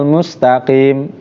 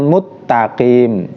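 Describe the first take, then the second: First: An 's' sound comes before the 't'. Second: A doubled 't' replaces the 's' sound. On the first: The speaker calls it right. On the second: The speaker calls it wrong.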